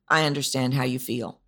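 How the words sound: The sentence is said in a flat monotone. The speaker seems to have no real idea of the listener's feelings. The speaker calls it wrong. "maybe you say it monotone"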